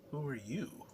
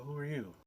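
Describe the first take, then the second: First: "Who" pushed up and stressed, ending in a rise. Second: Said in the usual way. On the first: Retold or imitated. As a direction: throw "Who" back at him, rising. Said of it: "I said". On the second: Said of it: "He looked at me and said".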